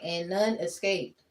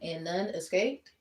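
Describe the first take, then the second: First: The voice falls at the end like a statement. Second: The voice rises at the end like a question. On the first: It is a plain statement. The speaker calls it wrong. "I said it wrong" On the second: It is asked as a question. The speaker calls it right. "It's like a question"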